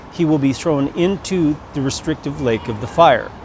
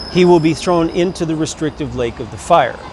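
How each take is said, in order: Both takes have the same delivery.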